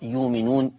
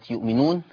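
First: A long vowel replaces the glottal stop. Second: A glottal stop follows the first syllable. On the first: This is the reading that replaces the hamza. "فتقرأ يؤمنون" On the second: This is the word in its base form. "نحو كلمة يؤمنون"

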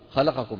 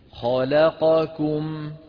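First: The syllables are snatched quickly and rushed together. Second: Each syllable gets equal, even timing. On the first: The speaker calls it wrong. "يعني يخطفها خطف" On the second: The speaker calls it right. "خلقكم هكذا"

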